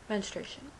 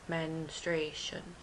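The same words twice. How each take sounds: First: The word is said at normal speed. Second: The word is sounded out slowly, syllable by syllable. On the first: "So I read it again" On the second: "let's sound it out, [name]. So I sound it out"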